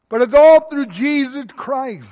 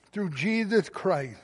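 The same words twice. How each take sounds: First: "all" punched loud and high; emphatic preaching. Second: Slow, much softer "Through Jesus Christ"; quiet echo. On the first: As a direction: drive "all through Jesus Christ" home. Preacher's climax then soft echo. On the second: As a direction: let it fall to a hushed repeat. Soft echo of previous line. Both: Real, not acted.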